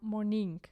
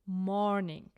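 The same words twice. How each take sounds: First: The stress is on the second syllable. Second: The first syllable is loud and exaggerated. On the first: The speaker calls it wrong. "if we stress this word on the second syllable" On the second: The speaker calls it right. "pronounce it loud and exaggerate the first syllable"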